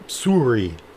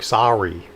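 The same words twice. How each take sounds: First: Sorry is said with a Canadian vowel. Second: Sorry is said with an American vowel, like 'saw'. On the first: The speaker is from Canada. "we say sort of like sorry" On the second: The speaker is from the United States. "Americans say sorry, as in they're like sawing a log"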